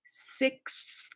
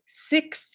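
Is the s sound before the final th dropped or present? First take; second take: present; dropped. First: It ends with a full k, s, th cluster. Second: It ends with k then th, no s. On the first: "we actually do the full K S T H sound like this" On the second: "like S I C K T H"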